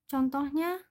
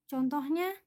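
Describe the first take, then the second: The two takes are said the same way.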